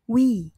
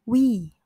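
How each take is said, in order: First: The word begins with a W sound. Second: The same.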